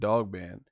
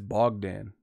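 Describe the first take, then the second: First: The name begins with a d sound. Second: The name begins with a b sound. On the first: The speaker calls it wrong. "saying it the wrong way" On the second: The speaker calls it right. "It's Bogdan"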